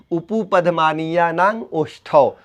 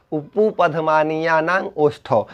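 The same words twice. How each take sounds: First: Said in the usual way. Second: उपुपधमानीयानांग ओष्ठौ said slowly, softer; slow recitation. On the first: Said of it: "teacher recites sutra". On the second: Shown as a demonstration. Teacher repeats the sutra slowly for students. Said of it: "teacher repeats sutra slowly".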